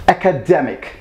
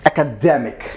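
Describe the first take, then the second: First: The stress falls on the third syllable. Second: The stress falls on the third syllable.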